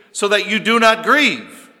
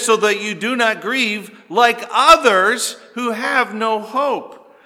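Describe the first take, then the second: First: "grieve" hit loud and falling, ending the sentence; full stop on GRIEVE. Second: "others" punched high and loud, running on past "grieve"; stress on OTHERS. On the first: Preacher quoting the verse wrongly cut short, heavy stress on "grieve". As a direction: land hard on "grieve" and stop there. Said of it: "That's not what he says, is it?". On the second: Preacher correcting the verse for the congregation, heavy stress on "others". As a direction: carry through "grieve" and hit "others" hard. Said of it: "He says". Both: Shown as a demonstration.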